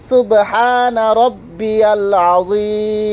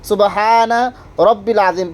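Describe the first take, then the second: First: Rabbi is followed by a clear ya syllable. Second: Rabbi runs straight into al, with no ya. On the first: The speaker calls it right. "সঠিকভাবে" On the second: The speaker calls it wrong. "দেখেন কি কি ভুল পড়ে থাকে"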